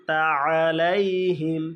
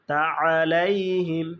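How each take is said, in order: The two takes are said the same way.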